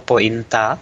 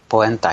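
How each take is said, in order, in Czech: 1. Druhá samohláska zní jako i. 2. Druhá samohláska zní jako e. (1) "tu chybnou výslovnost pointa" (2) "ta výslovnost je poenta, jedině správná"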